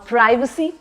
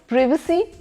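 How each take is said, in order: First: The word is said with an American pronunciation. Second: The word is said with a British pronunciation. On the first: "that's the American one" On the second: "that's the British pronunciation"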